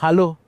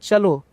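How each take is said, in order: First: It is said in local Gujarati, starting with 'h'. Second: It is said in polished Gujarati, starting with 'ch'.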